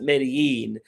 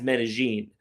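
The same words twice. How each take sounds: First: It is pronounced with an American accent. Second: It is pronounced with a local Colombian Paisa accent. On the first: This is how outsiders say it. The speaker calls it wrong. "comes back to America and calls it Medellin" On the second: This is how locals say it. The speaker calls it right. "in the Paisa accent in Medellin, they pronounce Medellin as Medellin"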